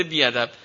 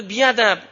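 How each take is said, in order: First: Said in the usual way. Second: High mock shriek of a child; child's scream. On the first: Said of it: "یه بزرگتر رو که مثلاً اومده بوسش کنه گفته". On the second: Child shouting the rude word at relatives, mock shriek. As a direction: yell it out like a child in front of guests.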